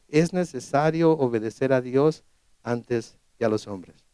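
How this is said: It is said in a calm, quiet tone. The reply is a calm statement of conviction. The speaker calls it right. "tranquilamente dicen"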